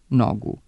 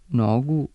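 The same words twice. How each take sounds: First: The short first syllable has a falling accent. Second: The short first syllable has a rising accent. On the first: "sa kratkosilaznim, a ne sa kratkouzlaznim akcentom" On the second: "sa kratkouzlaznim akcentom"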